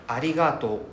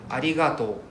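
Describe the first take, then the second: No difference in how they are said.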